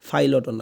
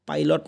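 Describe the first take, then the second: First: It starts with an f sound. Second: It starts with a plain unaspirated p sound. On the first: "ফাইলটও না" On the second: "পাইলট না"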